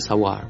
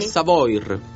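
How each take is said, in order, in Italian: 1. La parola Savoir si pronuncia alla francese. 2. La parola Savoir si pronuncia all'italiana. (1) "alla francese Savoir" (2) "Magari è Savoir"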